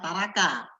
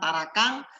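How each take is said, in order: First: The word ends with no final consonant. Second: The word ends in an ng sound. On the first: "ada yang mengucapkan taraka" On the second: "ada yang mengucapkan tarakang"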